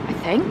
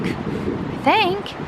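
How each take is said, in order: First: Said in the usual way. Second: I think said much higher and squeaky; high squeaky repeat. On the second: Shown as a demonstration.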